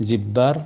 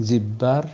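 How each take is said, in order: No difference in how they are said.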